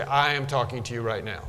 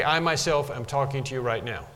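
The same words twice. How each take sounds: First: Said in the usual way. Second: "I myself" given mild emphasis; a touch of emphasis on "I myself", then falling away; emphatic. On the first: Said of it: "I would say". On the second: Shown as a demonstration. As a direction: lightly underline "I myself" at the start. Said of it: "it's emphatic".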